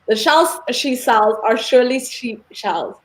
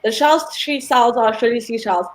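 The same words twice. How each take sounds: First: It is said slowly. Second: It is said fast.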